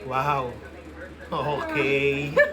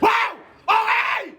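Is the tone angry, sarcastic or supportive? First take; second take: sarcastic; angry. First: It is said in a mocking, sarcastic tone. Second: It is said in a harsh, angry tone. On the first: "Sarcastic, ako na" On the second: "Oh, angry na. Ako na"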